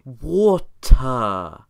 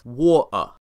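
First: The middle consonant is a clear T sound. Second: The middle consonant is a glottal stop. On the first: "the voiceless alveolar stop, the T sound, which you used when you said water" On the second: "he used the glottal stop, hence war-uh"

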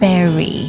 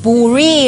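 First: The first vowel sounds like 'berry'. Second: The first vowel sounds like 'burr'. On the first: The speaker calls it right. "จะต้องออกเสียงว่า" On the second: The speaker calls it wrong. "คำนี้อย่าไป bury นะคะไม่ใช่นะคะ"

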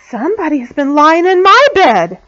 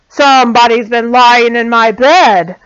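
First: It is said in a middle-sized voice. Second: It is said in a great big voice.

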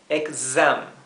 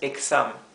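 First: The x is said with a buzzing z sound. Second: The x is said with a hissing s sound. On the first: The speaker calls it right. "es exam" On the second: The speaker calls it wrong. "esto no es exam"

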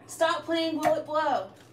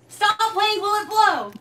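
First: It is said flatly, without energy. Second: It is said with lively enthusiasm.

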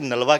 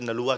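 First: The name ends in a 'wa' sound. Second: The name ends in an 'oo-a' sound. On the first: This is the internationally recorded form. "International dictionary ਦੇ ਵਿੱਚ ਨਲਵਾ ਕਿਹਾ ਜਾਂਦਾ" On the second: This is the everyday Punjabi form. "ਆਪਾਂ ਆਪਣੀ ਭਾਸ਼ਾ ਵਿੱਚ ਨਲੂਆ ਕਹਿ ਦਿੰਦੇ ਹਾਂ"

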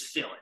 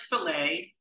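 First: The t is sounded; it ends in 'it'. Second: The t is silent; it ends in 'ay'. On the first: This is the modeling-term pronunciation. "but it's fillet. Sometimes the French pronunciation is not used" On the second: This is the food-word pronunciation. "spelled exactly like fillet"

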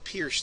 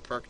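First: The name sounds like 'pierce', ending in s. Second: The name sounds like 'perk', ending in k. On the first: "says it's properly pronounced the pierce defense" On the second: "A lot of people call it the perk"

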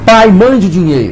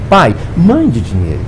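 First: It sounds like a blunt, demanding order. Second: It sounds like a gentle, pleading request. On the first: The son is rudely ordering his father to send money. The speaker calls it wrong. "Mas como é que você me faz um negócio desse? Manda um telegrama assim" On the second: The son is humbly asking his father for money. The speaker calls it right. "não foi isso que eu falei, não. Eu falei assim"

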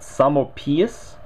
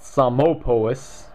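First: The O in the name is not pronounced. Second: The O in the name is clearly pronounced. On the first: "where the O is silent" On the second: "people like myself like to call it"

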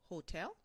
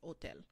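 First: The word begins with an audible H sound. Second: The word begins directly with the vowel sound. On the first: "En anglais, nous prononçons H là" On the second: "We just don't pronounce the H in Creole. The H is silent"

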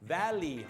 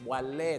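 First: The last syllable is said with an English accent. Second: The last syllable is said with a Thai accent. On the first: The speaker calls it right. "ถ้าเป็นภาษาอังกฤษต้องเป็น" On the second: The speaker calls it wrong. "ถ้าเป็นสำเนียงไทยจะเล่"

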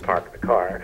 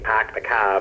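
First: It has a general accent with the r pronounced. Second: It has a Massachusetts accent with the r dropped. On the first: "versus park the car" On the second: "I start saying park the car"

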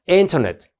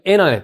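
First: The t after the n is pronounced. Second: The t after the n is dropped. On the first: "今これT 言いましたけど" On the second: "Internet っていう人も結構多いので"

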